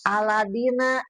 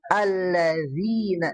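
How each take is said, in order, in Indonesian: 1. Konsonan sebelum -ina itu d keras. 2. Konsonan sebelum -ina itu dh lunak. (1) "terkadang suka dibaca waladina ya" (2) "Harusnya bukan Aladina tapi Allazina"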